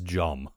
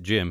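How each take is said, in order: First: The vowel is the short 'u' of 'hum'. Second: The vowel is the short 'i' of 'him'. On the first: This is how one actor says the name. "He says Jum" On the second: This is the usual way to say the name. "He does not pronounce it Jim"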